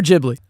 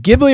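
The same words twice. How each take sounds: First: Ghibli with a soft G, as "JIB-lee". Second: Ghibli with a hard G, as "GIB-lee". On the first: Co-host demands a ruling on the debate, soft-G Ghibli. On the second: Co-host demands a ruling on the debate, hard-G Ghibli. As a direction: say Ghibli starting like "give". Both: Shown as a demonstration. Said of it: "End that debate right now".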